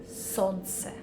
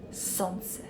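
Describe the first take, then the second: First: Солнце with the l dropped, sontse; soft солнце, no l sound; silent l. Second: Солнце whispered as sontse. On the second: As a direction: breathe солнце with no l. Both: Shown as a demonstration. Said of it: "remove it from this word".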